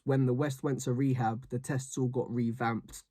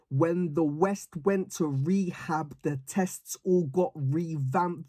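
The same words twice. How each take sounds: First: The words are articulated in a normal way. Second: The words are articulated with exaggerated enunciation.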